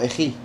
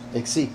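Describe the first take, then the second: First: The middle consonant is a throaty h-like sound. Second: The middle consonant is a ks sound. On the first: The speaker calls it right. "sería pronunciado eji" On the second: The speaker calls it wrong. "en vez de exi"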